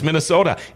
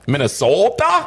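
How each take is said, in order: First: The word is said in a plain, ordinary accent. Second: The word is said with an exaggerated, mocking accent. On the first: This is how he actually said it. The speaker calls it right. "It's Minnesota" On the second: Others were mocking how he says it. The speaker calls it wrong. "I didn't say it like that"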